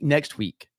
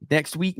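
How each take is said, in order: First: "Next week." with a firm falling tune; settling it. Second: "Next week?" with a rising question tune; asking. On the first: Host deciding the stream date, firm falling statement. Answers his own question. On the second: Host asking the guest to confirm, rising question. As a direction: ask "Next week?" as a real question, lifting the end. Asks host when stream happens. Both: Real, not acted.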